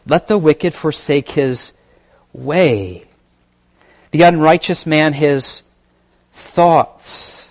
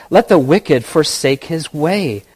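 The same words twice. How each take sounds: First: Preacher rereads verse, weighing "wicked" and "way" slowly; stress on wicked and unrighteous. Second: Said in the usual way. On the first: Shown as a demonstration. Preacher to congregation, pausing before "way" and "thoughts". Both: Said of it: "Maybe I'll emphasize some words here".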